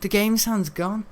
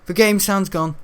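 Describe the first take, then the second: First: Slow, deliberate repeat of "The game sound's gone". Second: Annoyed. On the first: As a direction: drag the line out to stress the problem. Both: Real, not acted. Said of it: "listen to that".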